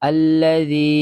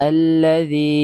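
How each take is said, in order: The two takes are said the same way.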